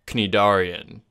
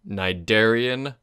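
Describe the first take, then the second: First: The word is pronounced in Greek style. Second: The word is pronounced the standard way. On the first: "if you want to go with the Greek style" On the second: "It is pronounced Cnidarian"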